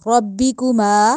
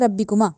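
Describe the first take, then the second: First: The r is heavy and the final vowel long. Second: The r is light and the final vowel short. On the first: The speaker calls it right. "रॉ को मोटा करके पढ़ना है और मीम को लंबा करना है" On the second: The speaker calls it wrong. "रब्बिकुमा कहना गलत है"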